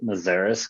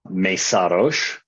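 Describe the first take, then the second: First: The name is said with an American pronunciation. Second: The name is said with a Hungarian pronunciation. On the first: This is the version the family has always used. "we've always just said Mazaris because that's what's been passed down to the family" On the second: This is the original form of the name. "It's actually originally Mesaros, Hungarian name"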